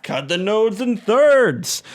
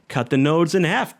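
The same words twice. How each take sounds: First: "thirds" drawn out, slow and firm; slow emphatic correction. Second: Said in the usual way. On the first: Shown as a demonstration. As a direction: land hard on "thirds", slowly.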